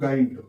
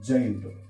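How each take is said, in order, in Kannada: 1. ಈ ಪದ ಗಟ್ಟಿಯಾದ G ಶಬ್ದದಿಂದ ಶುರುವಾಗುತ್ತದೆ. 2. ಈ ಪದ ಮೃದುವಾದ J ಶಬ್ದದಿಂದ ಶುರುವಾಗುತ್ತದೆ. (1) "ನಿಮ್ಮ ಪ್ರಕಾರ ಬಂದ್ರೆ ಇದು ಗೈಂಟ್" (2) "ಇಂಗ್ಲಿಷ್ ನ ಪ್ರಕಾರ ಬಂದ್ರೆ ಇದು ಜೈಂಟ್"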